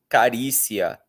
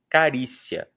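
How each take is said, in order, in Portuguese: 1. O i e o a finais são sílabas separadas. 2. O i final é fraco e desliza para o a. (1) "Você não fala carícia" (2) "normalmente fala carícia"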